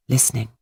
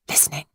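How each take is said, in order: First: Said in the usual way. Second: Much softer echo of listening; fading away. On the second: A narrator's reading. Narrator as the thief listens, softer and fading. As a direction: let the word listening die away, softer. Repeated word, second fades.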